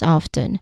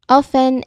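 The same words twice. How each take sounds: First: The T sound is pronounced. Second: The T sound is silent. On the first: "especially for older speakers or people in certain re- regional dialects, they pronounce it as often" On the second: "there is a silent T sound ... often is the correct pronunciation"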